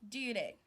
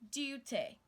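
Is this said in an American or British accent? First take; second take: American; British. First: It is said in an American accent. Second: It is said in a British accent. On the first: "while the American says duty" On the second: "they also say duty"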